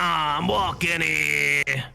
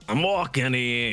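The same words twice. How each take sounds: First: It is said in a South Carolinian accent. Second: It is said in a Canadian accent. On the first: "my um South Carolinian accent" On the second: "my Canadian accent"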